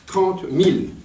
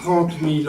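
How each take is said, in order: First: "mille" lifted in pitch for emphasis; insistance sur mille. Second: Said in the usual way. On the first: Real, not acted. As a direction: hammer home the figure, punching "mille". Insiste sur le chiffre, corrige. (« mille » accentué, plus haut, avec insistance)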